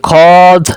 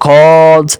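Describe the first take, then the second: First: খদ said slowly with the waw silent, short and clean; teacher's careful model of খদ, no waw sound; correct pronunciation. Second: খদ said slowly with the waw sounded, as a learner's mistake; teacher demonstrating the mistaken খদ, with the waw audible; wrong pronunciation. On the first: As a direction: say খদ carefully without sounding the waw, slow and clear. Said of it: "তাহলে ওয়াও উচ্চারণ হয় খদ". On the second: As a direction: slowly let the waw come through in খদ to show the error. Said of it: "তাহলে কিন্তু ওয়াও উচ্চারণ হয়েছে". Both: Shown as a demonstration.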